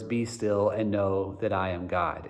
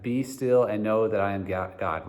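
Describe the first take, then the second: First: "Be" given the weight, the verse said slowly; stress on be. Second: "still" is the strongest word in the verse; stress on still. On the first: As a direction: lean on "Be" and let the rest follow gently. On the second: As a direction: hit "still" and keep the other words light. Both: Shown as a demonstration. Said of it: "emphasizing the words".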